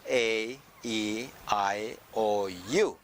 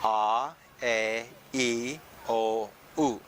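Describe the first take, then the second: First: The vowels are said as English letter names. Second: The vowels are said as Filipino vowel sounds. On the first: "in English, the natural way" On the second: "in abacada form"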